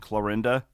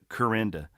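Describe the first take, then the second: First: The name is said with an L sound. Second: The name is said without an L sound. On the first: "we live in Clarinda" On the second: "seventy percent of the town calls it Corinda"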